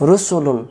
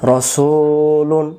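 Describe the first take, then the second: First: রসুলুন as "rusulun", all syllables short; quick, round "ru" and short "su" in রসুলুন; short vowels. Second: রসুলুন with "su" held long; drawn-out, recited রসুলুন; long middle vowel. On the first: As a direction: say রসুলুন higher with no stretch. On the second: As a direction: stretch "su" in রসুলুন, then close on "lun". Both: Shown as a demonstration. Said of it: "একটা অক্ষর কম থাকার কারণ".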